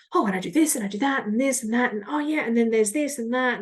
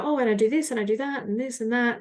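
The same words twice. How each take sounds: First: Fast, jumpy rambling on one breath; scattered rambling. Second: Fast, scattered rambling; rushed scattered tone. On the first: Shown as a demonstration. Demoing the overwhelmed tone to listeners, hurried. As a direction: rattle it off, all over the place. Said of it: "as opposed to perhaps a bit like". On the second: Retold or imitated. Mock-rambling to a coffee chat contact, hurried. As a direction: rattle it off all over the place. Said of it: "this tone of voice of".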